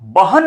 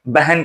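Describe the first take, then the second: First: The first vowel is an open 'a' sound. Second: The first vowel is an 'e' sound. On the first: This is not how people actually say it. "बहन नहीं कहा जाता" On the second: This is how people actually say it. "बहन कहा जाता है"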